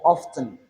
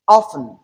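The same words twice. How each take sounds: First: Often said OFF-tun, T sounded; T pronounced. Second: Often said OFF-un, no T sound; silent T. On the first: Teacher giving the other option, often with T. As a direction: put a clear T after the f in often. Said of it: "or you pronounce it with the T sound". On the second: Teacher giving one optional pronunciation, often without T. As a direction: drop the T in often, straight from f to n. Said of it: "pronounce this word without the T sound". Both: Shown as a demonstration.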